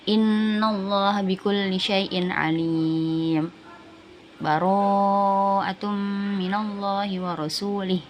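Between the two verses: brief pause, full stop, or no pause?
brief pause. It pauses briefly between verses without breathing. "Sama kayak waqaf, bedanya cuma tidak bernafas"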